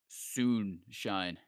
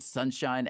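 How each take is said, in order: First: The first syllable sounds like 'soon'. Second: The first syllable sounds like 'sun'. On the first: The speaker calls it right. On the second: The speaker calls it wrong.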